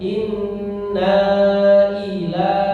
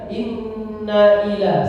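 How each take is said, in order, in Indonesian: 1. Na-nya dibaca panjang. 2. Na-nya pendek, langsung disambung. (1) "nanya dibaca panjang ya ... Enggak boleh" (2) "Inna ila itu langsung disambung"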